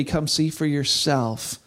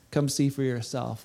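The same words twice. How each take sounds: First: Slow, drawn-out come see for yourself; slow invitation. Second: Much softer, lower come see for yourself; softer echo. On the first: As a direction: linger on each word of "Come see for yourself". Repeated invitation. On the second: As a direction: let "Come see for yourself" fade almost to a hush. Repeated invitation, softer. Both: Acted.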